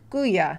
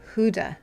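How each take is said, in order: First: The word is said without a D sound. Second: The word is said with a D sound. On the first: "No D" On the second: "You do pronounce the D"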